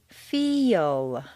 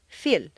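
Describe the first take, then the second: First: The word is drawn out with a Y glide. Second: The word is said short with no glide. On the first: The speaker calls it right. "You need to say feel. Is that really a Y? Yes" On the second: The speaker calls it wrong. "If you say just the letters that you see, it will sound more like feel or fill"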